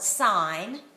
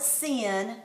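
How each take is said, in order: First: The vowel is long, rhyming with pine. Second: The vowel is short, rhyming with pin. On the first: The speaker calls it right. "you call it sine" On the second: The speaker calls it wrong. "you don't call it sin"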